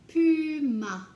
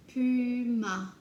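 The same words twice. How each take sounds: First: Puma said loud and higher, falling; loud, high model of Puma; called out word. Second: Said in the usual way. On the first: Shown as a demonstration. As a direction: announce Puma loudly to the class. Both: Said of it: "teacher word drill".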